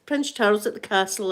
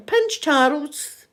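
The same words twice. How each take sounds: First: Said in the usual way. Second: Prince Charles drawn out slowly, rising higher; stressed name. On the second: Shown as a demonstration. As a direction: stretch out "Prince Charles" slowly and let it rise. Repeats the name for emphasis.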